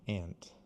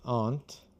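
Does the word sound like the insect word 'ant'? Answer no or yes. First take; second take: yes; no. First: It sounds the same as the insect word ant. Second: It sounds different from the insect word ant. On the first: This is the casual, popular way of saying it. "cool people say aunt" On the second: This is the posh way of saying it. "the pronunciation that is for snobs"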